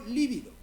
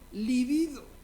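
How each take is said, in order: First: The stress is on the first syllable. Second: The stress is on the second syllable. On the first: The speaker calls it wrong. "y no líbido, que es como la mayoría de los mortales la pronunciamos" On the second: The speaker calls it right. "Pronúnciese como lo acabo de hacer yo"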